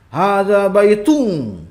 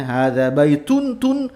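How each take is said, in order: First: Hadza baitun with baitun ending in ng, slow, louder and higher; mock Sulawesi-style baitung. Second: Hadza baitun ending on a crisp tun, slow and louder; clear final n. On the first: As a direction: imitate a Sulawesi learner turning n into ng. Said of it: "orang Sulawesi ... seperti itu". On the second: Shown as a demonstration. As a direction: land the final -tun cleanly with an n, not ng. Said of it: "itu harus jelas ya".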